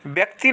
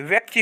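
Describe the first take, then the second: First: व्यक्ति as "byak-ti"; wrong b sound. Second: व्यक्ति as "vyak-ti"; correct v sound. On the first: Teacher showing students the mistake, b substituted. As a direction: start व्यक्ति with by. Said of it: "नहीं". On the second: Teacher giving students the right form, clear v. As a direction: start व्यक्ति with vy. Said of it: "होता है". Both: Shown as a demonstration.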